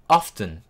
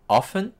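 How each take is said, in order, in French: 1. Le mot se prononce avec un T audible. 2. Le mot se prononce avec un T muet.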